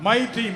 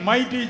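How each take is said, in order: Both takes have the same delivery.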